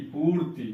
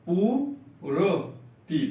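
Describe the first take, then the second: First: Said in the usual way. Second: पूर्ति stretched as पू-र-ति, very slow; teacher sounding out पूर्ति; slow syllable reading. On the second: Shown as a demonstration. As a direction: draw out the half रा in पूर्ति. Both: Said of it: "आधा रा का उच्चारण होगा".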